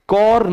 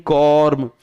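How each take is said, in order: First: कॉर्न ending in an N sound; wrong word ending. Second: कॉर्म closing on an M sound, falling; corrected word ending. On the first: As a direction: say कॉर्न with a clear final N. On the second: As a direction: say कॉर्म with a final M, lips shut. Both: Shown as a demonstration. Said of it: "कॉर्न नहीं".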